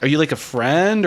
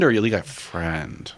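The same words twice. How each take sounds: First: Said in the usual way. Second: Insinuating, lower second "friend"; suggestive stress. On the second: Acted. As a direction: lean meaningfully on FRIEND, pitched down.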